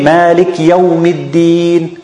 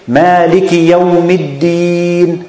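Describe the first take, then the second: First: The short i after Malik is dropped. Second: The i after Malik is clear but kept short. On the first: The speaker calls it wrong. "He think he's pronouncing the kasra, but he's not" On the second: The speaker calls it right. "We say Maliki Yawmiddin"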